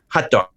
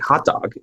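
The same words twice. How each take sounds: First: The vowel in hot is an uh, like hut. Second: The vowel in hot is an open ah. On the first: "That's always hut, like a small house" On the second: "not a hot dog"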